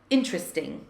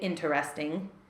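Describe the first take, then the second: First: It is squeezed into three syllables. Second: All four syllables are pronounced fully. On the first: "when we are speaking quickly, it sounds like interesting" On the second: "sometimes people say interesting"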